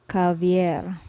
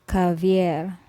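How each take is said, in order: The two takes are said the same way.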